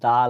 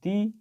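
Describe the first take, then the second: First: The vowel is a short uh sound. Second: The vowel is a long ee sound. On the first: The speaker calls it right. "এটাকে কি sound করব দা lion" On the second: The speaker calls it wrong. "এটাকে আমরা sound করব না"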